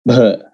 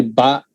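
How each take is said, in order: First: "ba" as bha, with a puff of H after the b; stressed, aspirated B. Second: Said in the usual way. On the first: Shown as a demonstration. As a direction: stress "ba" and add a little H to it. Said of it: "add a little bit of H to it". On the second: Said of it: "B only".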